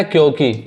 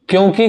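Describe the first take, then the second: First: क्योंकि with a plain oral o, kyoki; missing nasal. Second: क्योंकि with a nasalised o before ki; correct nasal vowel. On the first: Teacher reading the student's misspelling, क्योंकि without its nasal. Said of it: "यहाँ पे भी मात्रा". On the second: Teacher naming the intended word, क्योंकि with its nasal. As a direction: let the o in क्योंकि go through the nose. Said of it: "के जगह क्या लिखा है". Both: Shown as a demonstration.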